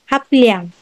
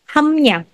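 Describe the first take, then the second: First: The first syllable ends in a p sound. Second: The first syllable ends in an m sound. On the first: The speaker calls it wrong. "Pag pinronounce mo siya as it is" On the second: The speaker calls it right. "change your B up to mi-um"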